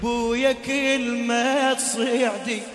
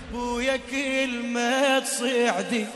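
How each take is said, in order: Both takes have the same delivery.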